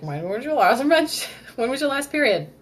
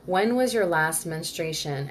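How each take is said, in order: First: High, loud clinical doctor question, laughing mid-line; doctor grilling a patient about her period, high and loud; mock doctor. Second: Said in the usual way. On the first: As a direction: ask like a brisk doctor at a checkup, breaking into a laugh. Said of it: "when you go to the doctor and they're like".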